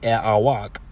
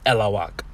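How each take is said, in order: First: The vowels are said separately, with no L sound. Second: An L sound links the two vowels. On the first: This is the more formal, correct form. "instead of saying" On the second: This is the everyday spoken form. "you say elawak"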